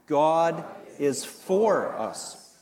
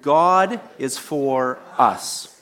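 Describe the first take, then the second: First: The stress is on the word for. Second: The stress is on the word us.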